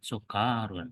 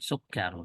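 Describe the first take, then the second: First: A vowel is dragged out and lengthened. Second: The vowels are kept short and crisp. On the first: The speaker calls it wrong. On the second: The speaker calls it right.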